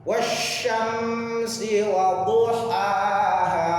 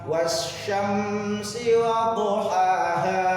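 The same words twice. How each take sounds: Both takes have the same delivery.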